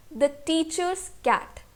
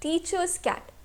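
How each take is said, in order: First: Said in the usual way. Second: Teacher's said higher and pushed hard; stress on teacher's. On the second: Shown as a demonstration. Teacher showing students the stressed word teacher's, stressed. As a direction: lean on teacher's, let cat fall away. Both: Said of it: "हमारा force पड़ रहा है".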